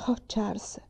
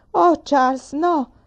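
First: Breathless despairing whisper; hushed whisper. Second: Loud, high cry of alarm. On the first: Mamma to Charles after the grasshoppers, despairing whisper. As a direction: barely voice it, crushed. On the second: Mamma to Charles as he says he'll leave, alarmed cry. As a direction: shout it in dismay, pitched up. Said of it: "gridò mamma". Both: Acted.

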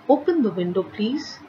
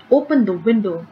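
First: Polite request. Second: Forceful command. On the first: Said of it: "is a request". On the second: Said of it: "given with lot of force". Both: Shown as a demonstration.

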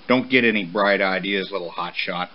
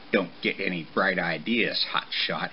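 First: Low-key stern father; firm warning, falling away at the end. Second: Low, soft mimicry of Papa; mocking mumble. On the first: Acted. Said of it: "Papa warned as he walked off". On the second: Young horse mocking his father behind a bush, low mumble. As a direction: mumble it mockingly under your breath. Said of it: "he mumbled, mocking his father".

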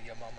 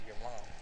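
First: "mom" with a short uh-like vowel; rejected pronunciation. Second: "mom" with an open ah vowel; preferred pronunciation. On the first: Showing how they don't say it, "mom" as "mum". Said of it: "I say your mom". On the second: Showing how they say it, "mom" as "mahm". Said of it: "I don't say your mom". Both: Shown as a demonstration.

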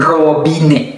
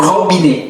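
First: Robinet with a rolled tongue-tip R; alternative R sound. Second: Robinet with a French throat R; alternative R sound. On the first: Teacher offers learners another reading, rolled R in robinet. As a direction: trill the R at the start of robinet. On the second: Teacher offers learners two readings, throat R in robinet. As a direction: make the R of robinet at the back of the throat. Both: Shown as a demonstration. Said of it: "หรือ".

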